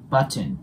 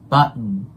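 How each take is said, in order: First: The t sound is clearly pronounced before n. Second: The t sound is dropped, going straight to n. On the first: The speaker calls it wrong. "発音記号通りに読んでみるとバッチンバッチンのような感じになります" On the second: The speaker calls it right. "このT がなくなるとどういう感じに発音されるかっていうと"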